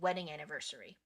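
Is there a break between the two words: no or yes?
no. The two words run together without a pause. The speaker calls it right. "You would say wedding anniversary"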